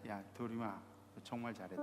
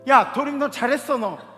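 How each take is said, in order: First: It is said in a soft, gentle tone. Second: It is said in an irritated, snappy tone.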